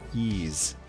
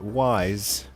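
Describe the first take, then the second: First: The name rhymes with geese. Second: The name rhymes with eyes. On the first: The speaker calls it right. "actually, it's pronounced Yeez" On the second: The speaker calls it wrong. "if you pronounce it wise, you're going to have a whole bunch of people jumping on you, correcting you"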